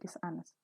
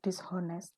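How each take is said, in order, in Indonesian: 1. Bunyi h setelah dis tidak dibaca. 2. Bunyi h setelah dis dibaca. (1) "Hanya nggak boleh dibaca ya. ... tapi dishonest" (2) "bukan dishonest"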